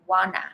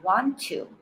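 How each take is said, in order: First: The words are squeezed into one short reduced word. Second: Both words are said fully and separately. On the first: "this becomes wanna" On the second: "another common one, want to"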